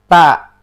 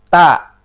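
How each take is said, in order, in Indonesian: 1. Huruf t diucapkan terlalu kuat. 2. Huruf t diucapkan terlalu kuat.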